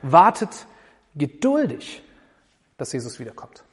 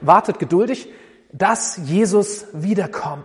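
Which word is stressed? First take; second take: geduldig; wiederkommt. First: The stress falls on the word geduldig. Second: The stress falls on the word wiederkommt. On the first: The point is that one should be patient. "Oder das Geduldigsein" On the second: The point is what is being waited for. "Oder das, worauf wir warten, dass Jesus wiederkommt"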